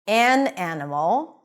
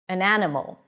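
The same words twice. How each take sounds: First: The article is stressed with a full vowel. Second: The article is reduced to a weak schwa. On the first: "when you want to emphasize the fact that it's one thing" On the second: "Both of them are pronounced with a schwa when unstressed"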